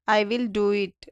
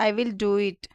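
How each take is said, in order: Both takes have the same delivery.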